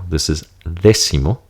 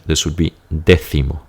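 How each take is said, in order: First: The c is pronounced like an s. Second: The c is pronounced like a th. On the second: "Diferenciación, differentiation"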